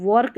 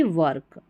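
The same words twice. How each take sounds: First: "वर्क" with an O, like "work" read as "work-wawrk"; "वर्क" with a rounded "or" vowel; wrong pronunciation. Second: "वर्क" as "vurk", neutral vowel; "वर्क" with an unrounded "er" sound; correct pronunciation. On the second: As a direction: say "वर्क" lower, with a schwa. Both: Shown as a demonstration. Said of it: "वर्क नहीं".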